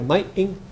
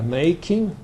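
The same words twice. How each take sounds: First: The middle consonant is a glottal stop. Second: The middle consonant is a full k sound. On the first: "You might even hear making and supper" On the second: "instead of k in words like uh"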